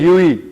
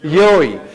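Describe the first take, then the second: First: The word starts with a 'yu' sound. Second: The word starts with a 'yo' sound. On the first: The speaker calls it wrong. "ये मत कह दीजिएगा यूई" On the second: The speaker calls it right. "This is rather योई"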